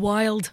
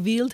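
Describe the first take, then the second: First: It is said with a New Zealand accent. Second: It is said with a German accent.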